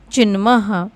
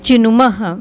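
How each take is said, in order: First: चिन्मः said without an u after the न; चिन्मः with the middle vowel dropped; missing u vowel. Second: चिनुमः with a clear u after the न; चिनुमः in three syllables, u in the middle; added u vowel. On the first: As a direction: run न straight into म in चिन्मः. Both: Shown as a demonstration. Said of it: "यहाँ पे ऊ की मात्रा लगा लीजिए".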